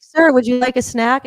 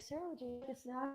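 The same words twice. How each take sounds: First: Slow, higher, louder put-on polite voice; stewardess. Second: Much softer, higher put-on polite voice; stewardess. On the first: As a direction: offer the snack slowly and brightly like a stewardess. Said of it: "do it again". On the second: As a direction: hush the polite offer like a stewardess. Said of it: "the stewardess was like".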